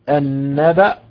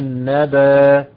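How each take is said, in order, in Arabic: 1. تنتهي الكلمة بهمزة وقف. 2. تنتهي الكلمة بحرف مد طويل 'aa'.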